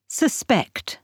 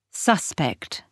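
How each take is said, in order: First: "Suspect" with the weight on SPECT; verb stress. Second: "Suspect" with the weight on SUS; noun stress. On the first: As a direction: stress on the second syllable, suSPECT. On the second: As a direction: stress on the first syllable, SUSpect. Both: Shown as a demonstration. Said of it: "the stress can move".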